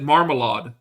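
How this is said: It has a heavy German accent, syllables dragged out. Someone else said it this way.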